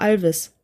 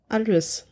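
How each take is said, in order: First: The name has two syllables, with a v sound. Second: The name has three syllables, ending in -is. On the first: "aber das ist bei uns immer Alvis" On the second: "Alois tatsächlich Alois ausspricht"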